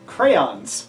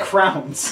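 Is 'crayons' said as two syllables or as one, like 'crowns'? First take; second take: two syllables; one syllable. First: The word is said with two clear syllables. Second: The word is squeezed into one syllable, like 'crowns'. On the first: The speaker calls it right. "the correct pronunciation" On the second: The speaker calls it wrong. "You say crowns"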